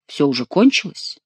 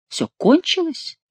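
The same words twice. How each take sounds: First: Said in the usual way. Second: High, slow surprised question; incredulous echo. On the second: A narrator's reading. The king asks back whether it is over, incredulous echo. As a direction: ask it back, pitch leaping up on КОНЧИЛОСЬ. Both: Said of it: "переспросил король".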